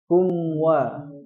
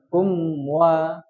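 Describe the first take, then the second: First: The lips round early, blending the m into w. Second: The m is fully sounded, distinct from the w. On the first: The speaker calls it wrong. "Jangan seperti ini" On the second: The speaker calls it right. "Kum wa kum wa kum waliyadin seperti itu"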